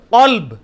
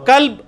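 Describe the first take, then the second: First: قلب with a heavy q from the back of the tongue; deep qaaf. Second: کلب with a thin forward k; light kaf. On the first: Teacher contrasting the two words, deep heavy q. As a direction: start قلب far back and full. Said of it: "اور قلب". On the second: Teacher giving the word for dog, light k. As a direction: start کلب on an everyday k. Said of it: "کتے کے لیے". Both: Shown as a demonstration.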